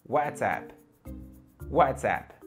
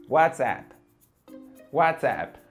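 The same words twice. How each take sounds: Both takes have the same delivery.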